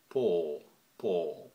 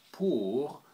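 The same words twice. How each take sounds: First: "pour" with a closed O, short and tight; Patois "pour". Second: French "pour", vowel like oo. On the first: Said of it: "with a closed O". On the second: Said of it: "in French you would say pour". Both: Shown as a demonstration.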